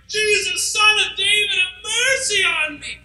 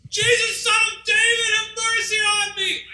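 First: High, pleading shout, slowing on have mercy on me; yelling even louder. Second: High, strained shout from far off; desperate cry for mercy. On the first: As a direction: beg louder over the crowd, voice near crying. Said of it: "he yells even louder". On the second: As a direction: cry out to Jesus as if across a crowd. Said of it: "he begins to yell". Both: Acted.

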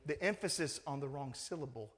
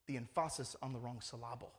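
First: Said in the usual way. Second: Lower, jokey em-FAH-sis for "emphasis" and sil-LAH-ble for "syllable"; "emphasis" and "syllable" misstressed on their second syllables; wrong-syllable stress. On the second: Shown as a demonstration. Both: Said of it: "Did you understand that English?".

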